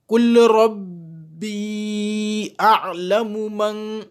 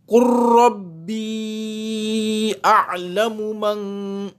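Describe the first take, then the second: First: The L is pronounced separately before the R. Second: The L merges into a doubled R sound. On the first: The speaker calls it wrong. "L'erreur, ce serait de lire le verset" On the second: The speaker calls it right. "la lecture exacte, correcte du verset ... le lam n'est pas prononcé, on l'assimile"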